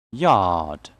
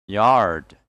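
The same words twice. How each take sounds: First: "Yard" with long "ah", silent R; British pronunciation. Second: "Yard" with the R sounded; American pronunciation. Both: Shown as a demonstration. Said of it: "And American English will be".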